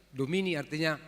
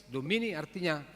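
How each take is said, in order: Both takes have the same delivery.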